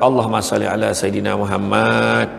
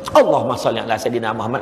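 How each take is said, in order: First: It is said in a calm, ordinary way. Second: It is blurted out as if startled.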